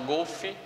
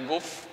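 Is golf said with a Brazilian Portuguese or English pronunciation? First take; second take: Brazilian Portuguese; English. First: The word has a Brazilian Portuguese pronunciation. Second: The word has an English pronunciation. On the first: The speaker calls it wrong. "que a gente aqui no Brasil chama golf" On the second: The speaker calls it right. "mas é golf"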